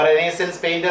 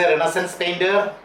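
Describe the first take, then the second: First: "Renaissance" as reh-NAY-sence before "painter"; pronunciation with full vowel. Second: "Renaissance" as REN-uh-sunce before "painter"; "Renaissance" said ren-uh-sənce; pronunciation with weak vowel. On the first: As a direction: say "Renaissance" with a clear ay or eh in the middle. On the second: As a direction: say "Renaissance" with a short uh in the middle. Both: Shown as a demonstration. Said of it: "it is pronounced as Renaissance and Renaissance".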